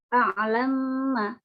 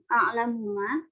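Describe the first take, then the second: First: The two m sounds merge into one held, nasal m. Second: The vowel after the first m is kept. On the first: "As-Susi juga membaca dengan idgham kabir yaitu a'lamma dengan tempo gunnah" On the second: "pada lafaz a'lamu a'lamuma"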